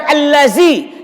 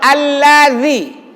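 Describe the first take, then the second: First: The middle consonant has the tongue kept behind teeth. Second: The middle consonant has the tongue between teeth. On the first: The speaker calls it wrong. "bukan allazi" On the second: The speaker calls it right. "Yang betul allazi. Lidahnya keluarkan sikit, tekan pakai gigi sikit"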